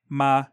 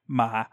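First: The pitch stays low and level. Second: The pitch starts low and falls further. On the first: "like a low flat tone" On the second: "a low falling"

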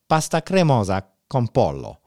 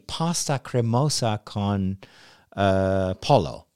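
First: It is said with an Italian accent. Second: It is said with an English accent.

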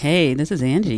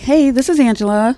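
First: It is said in a low, sultry voice. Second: It is said in a raised, higher voice.

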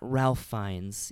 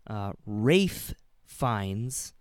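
First: The first name is said with an L sound. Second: The first name is said without an L sound. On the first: The speaker calls it wrong. "not Ralph Fiennes, even though it looks like it's spelled that way" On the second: The speaker calls it right. "he's always said that it's Ralph"

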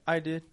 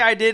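First: It is said in a nice, gentle tone. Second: It is said in a mean, hostile tone.

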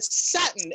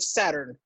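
First: It is pronounced the Australian way. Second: It is pronounced the North American way. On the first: This is how someone else said it. The speaker calls it wrong. "the guy who said Saturn" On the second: This is how it should have been said. The speaker calls it right. "instead of Saturn"

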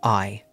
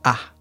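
First: The word is a full 'eye' diphthong. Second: The word is a short, reduced 'ah' vowel. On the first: "like I am Rob" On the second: "sometimes it's not pronounced I, it's pronounced ah"

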